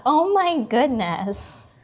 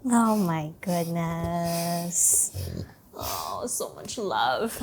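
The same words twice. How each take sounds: First: Excited cooing. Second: Soft, slow, tender cooing. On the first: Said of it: "my voice gets loud and excited". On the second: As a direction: melt over the dog, softly. Tender softer cooing at dog. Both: Real, not acted.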